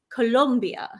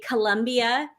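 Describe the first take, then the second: First: The second syllable has an 'oh' vowel, 'lom'. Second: The second syllable has an 'uh' vowel, 'lum'. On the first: It is said like the country's own name. The speaker calls it right. "but it's Colombia" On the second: It is said like the sportswear brand name. The speaker calls it wrong. "we have something in Oregon called Columbia Sportswear. So um that's why I say Columbia"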